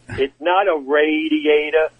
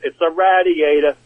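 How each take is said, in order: First: Radiator starts with 'ray', Southern style. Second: Radiator starts with 'rad', New York style.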